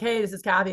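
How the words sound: It is said in a low chest voice. The caller could seem like an old man. The speaker calls it wrong. "I could sound like an old man"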